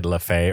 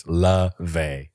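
First: "LaFay" with an F sound; mispronounced name. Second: "LaVey" slowly, with a V sound; two separate slow syllables in "LaVey", V clear; corrected pronunciation. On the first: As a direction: say "LaFay", F opening the second syllable. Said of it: "I think I said LaFay earlier". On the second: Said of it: "It's LaVey". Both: Shown as a demonstration.

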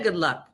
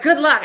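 First: Said in the usual way. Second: Mock hearty call. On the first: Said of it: "he don't even said". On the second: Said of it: "He was like".

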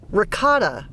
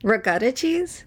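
First: "Ricotta" with an open "ah" in the middle; corrected pronunciation. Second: "Ricotta" with an "uh" vowel in the middle; own pronunciation of ricotta. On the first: Shown as a demonstration. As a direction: say "Ricotta" as ruh-KAH-tuh, crisp k. Correcting the other's cheese pronunciation. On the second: Real, not acted. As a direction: say "Ricotta" as ruh-GUH-tuh, drawn out. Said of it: "You can't pronounce the cheeses".

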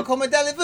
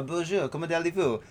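First: Higher, brash Quebecois "Comment allez-vous" with a rising end; Quebec French accent. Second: Put-on soft, proper Parisian French accent; a light imitation of a Paris French speaker, "comment allez-vous" smooth and softer. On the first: Retold or imitated. Host contrasting Quebec with Paris, brash Quebec French accent. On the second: Host showing how Parisians speak French, soft Parisian French accent. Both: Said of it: "they speak like this".

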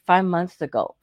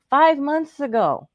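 First: Said in the usual way. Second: Five months ago, pitched high and slowed right down; indignant stress. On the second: Shown as a demonstration. Complaining to the host about the late email, indignant. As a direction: lean hard on Five months ago in disbelief.

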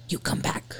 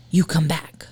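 First: Soft eerie whisper. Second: Said in the usual way. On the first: Retold or imitated. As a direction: whisper it like a ghost. Whispering the EVP.

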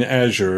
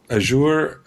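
First: "Azure" said as AZH-er; "Azure" stressed up front, ending in a weak "er"; stress on first syllable. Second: "Azure" said as a-ZHOOR; "Azure" with a long "oo", stressed at the end; stress on second syllable. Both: Retold or imitated. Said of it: "did correct himself when he said".

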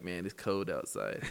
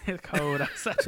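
First: "cold" said as "coad", lower and relaxed; dropped L accent. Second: "cold outside" said through a laugh; laughing while echoing "It's cold outside"; laughing repeat. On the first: A friend mimicking the speaker's dropped L, lower voice. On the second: The speaker laughing at his own L, echoing the line. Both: Retold or imitated.

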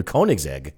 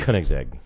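First: Koenigsegg said "KOH-nig-zeg"; mispronounced name. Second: Koenigsegg said lower, as "KUH-nig-zeg"; corrected pronunciation. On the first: Real, not acted. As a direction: say Koenigsegg with a long O, as in "cone". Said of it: "It's Koenigsegg". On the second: Shown as a demonstration. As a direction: echo Koenigsegg with a short "kuh" instead of "koh".

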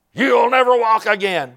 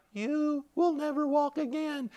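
First: Raised, higher voice of a taunting devil; devil's taunt. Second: Small, high, soft devil voice; devil's weakened taunt. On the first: Devil taunting a bedridden man, raised-voice taunt. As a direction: taunt them in a high, forceful voice. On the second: Devil losing ground to a believer, small soft taunt. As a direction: taunt slowly, shrunk to a faint high voice. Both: Retold or imitated. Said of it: "the devil was like".

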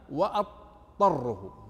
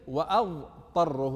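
First: "وأضطره" said slowly as wattarrahu, the ض merged into ط; dad assimilated. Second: "وأضطره" said slowly with a full ض sound, as written in the book; with the dad sound. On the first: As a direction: go straight from alif to ط in "وأضطره" with no ض. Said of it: "ألف طاء مباشرة بدون ضاد". ("وأضطره" بإدغام الضاد في الطاء) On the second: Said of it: "هي ليست". ("وأضطره" بنطق الضاد واضحة) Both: Shown as a demonstration.

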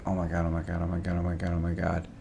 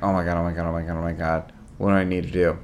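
First: Softer, lower, fretful oh my God on repeat; quiet, lower anxious chant of oh my God; anxious muttering. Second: Soft, lower, repeated fretting; whisper-panic under the covers; quiet worried loop of oh my God; anxious muttering. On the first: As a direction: mutter it to yourself, lying awake panicking. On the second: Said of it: "And I'm like". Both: Retold or imitated.

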